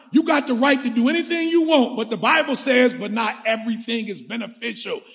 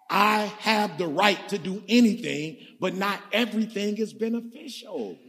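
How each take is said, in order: First: Pastor repeats the verse, pressing it home, emphatic; emphatic reading. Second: A quieter first reading of the verse, leaning on anything; measured reading. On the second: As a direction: pastor reads the verse softly to the congregation, measured. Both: Shown as a demonstration. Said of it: "One more time".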